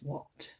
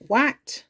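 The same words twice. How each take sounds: First: Said in the usual way. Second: WHAT read as it looks, with a flat A as in cat; mock misreading of WHAT with a short A; said as spelt. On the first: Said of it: "but it's what". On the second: Shown as a demonstration. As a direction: sound WHAT out from its spelling, rhyming with hat. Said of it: "Looks like what, but it's what".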